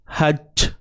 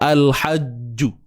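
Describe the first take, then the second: First: The final j ends without any added vowel. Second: The final j is followed by a u vowel. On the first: The speaker calls it right. "jangan bunyi c. Hajj" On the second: The speaker calls it wrong. "Kita jelaskan bunyi ju tu, tak mau"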